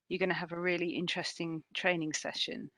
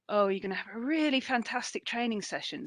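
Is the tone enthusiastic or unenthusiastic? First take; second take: unenthusiastic; enthusiastic. First: It is said with no enthusiasm. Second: It is said with an enthusiastic tone.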